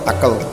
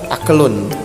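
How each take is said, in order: First: The word ends on a bare consonant. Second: The word ends with an -un ending.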